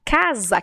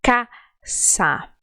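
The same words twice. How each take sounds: First: Casa with a voiced S like Z; Portuguese Z sound. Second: Casa with a sharp unvoiced S; Spanish S. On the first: Teacher shows the Brazilian casa with a Z sound. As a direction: say casa as caza. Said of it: "na palavra casa". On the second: Teacher models Spanish casa with a hard S. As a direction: say casa with a hissed S, not Z. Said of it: "Se pronuncia caça". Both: Shown as a demonstration.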